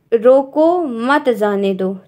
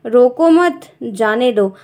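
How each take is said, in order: First: Slow रोको, pause, then मत जाने दो together; comma after रोको. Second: Slow रोको मत as one unit, pause, जाने दो; comma after मत. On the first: Teacher reads the comma example to students, pausing after रोको. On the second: Teacher reads the second comma example, pausing after मत. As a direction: join मत to रोको, then break. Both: Shown as a demonstration. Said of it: "विराम चिन्ह का प्रयोग उसके हिसाब से पढ़ना".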